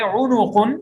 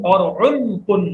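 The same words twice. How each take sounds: First: उनुकुन said with u after the n, four syllables; उनुकुन with vowel on nun. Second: उनकुन said with no vowel after the n, three syllables; उनकुन with sukun on nun. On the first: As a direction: say उनुकुन, nun carrying pesh. (नून पर पेश के साथ उनुकुन) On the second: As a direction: say उनकुन, nun closed with jazm. (नून पर जज़म के साथ उनकुन) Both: Shown as a demonstration. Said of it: "नून को पेश भी है और जज़म भी है".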